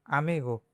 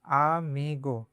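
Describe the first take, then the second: First: आमीगो said at normal speed with a falling end; normal pace word. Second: आमीगो stretched out slowly, syllable by syllable, falling at the end; slow word. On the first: Teacher to class, the word at natural speed. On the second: Teacher to class, saying the word very slowly. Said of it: "और ओ गो". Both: Shown as a demonstration.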